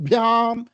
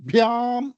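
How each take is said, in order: The two takes are said the same way.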